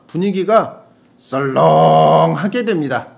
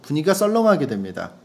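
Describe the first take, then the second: First: Loud, drawn-out 썰렁; hammed-up slow read with a booming 썰렁; gukbap tone. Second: Said in the usual way. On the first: Shown as a demonstration. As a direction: stretch 썰렁 long and loud. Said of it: "국밥 톤으로 읽어주세요". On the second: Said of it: "이 부분은 국밥 톤으로 읽어주세요".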